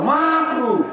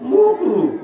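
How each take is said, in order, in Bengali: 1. প্রথম স্বরধ্বনিটি 'a'-এর মতো শোনায়। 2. প্রথম স্বরধ্বনিটি 'u'-এর মতো শোনায়। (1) "মানে মাকরুকে মুকরু বলে ছেড়ে দিল" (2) "ঠিক করে বলেও না"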